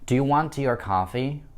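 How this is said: The pitch rises on the final word. It asks whether the person wants a drink at all. "моя интонация восходящая на последнем слове это coffee"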